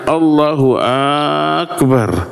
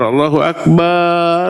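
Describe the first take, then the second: First: The opening vowel of Akbar is stretched long. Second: The final vowel of Akbar is stretched long. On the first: It turns the phrase into a doubting question. "Atau A pada akbarnya" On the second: It changes the meaning to drums. "Atau yang dipanjangkan itu barnya Allahu Akbar"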